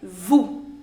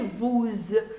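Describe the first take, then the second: First: The final s sound is silent. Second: The final s sound is pronounced. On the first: The speaker calls it right. "you say vous" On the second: The speaker calls it wrong. "you don't say vous"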